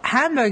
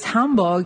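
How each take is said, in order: First: The name is said with an English pronunciation. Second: The name is said with a German pronunciation. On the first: The speaker is not from the place. "what you say if you're an English speaker who is not from Germany" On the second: The speaker lives in the place. "more what you say if you live here"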